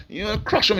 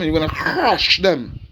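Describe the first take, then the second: First: Said in the usual way. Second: Crush drawn out with a long grinding onset; emphasis on crush. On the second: Shown as a demonstration. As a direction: stretch and lean hard on the word crush. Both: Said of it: "I emphasize on that word crush".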